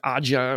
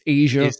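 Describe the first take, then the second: First: It is pronounced with a hard 'j', like 'ah-ja'. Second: It is pronounced like the word 'Asia'. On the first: The speaker calls it wrong. "if you never knew how to pronounce it, like Aja" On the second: The speaker calls it right. "or it's Asia"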